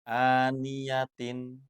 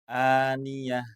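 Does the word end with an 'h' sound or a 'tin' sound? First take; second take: tin; h. First: The word ends with a full 'tin' syllable. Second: The word ends with a soft 'h' sound. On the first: The reading continues without stopping. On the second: The reader stops at this word.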